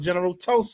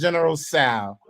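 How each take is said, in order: First: The name starts with a T sound. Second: The name starts without a T sound. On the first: This is what everyone usually calls it. "but we call General Toso" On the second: This is the proper way to say the name. "I know it's General Sal ... The T is silent"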